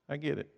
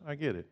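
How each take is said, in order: Both takes have the same delivery.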